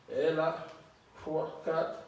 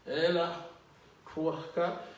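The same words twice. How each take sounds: The two takes are said the same way.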